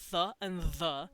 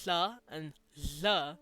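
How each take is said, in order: First: The th sounds are made at the teeth. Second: The th sounds are made behind the teeth. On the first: "since this is dental" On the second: "like alveolar, on that little bump"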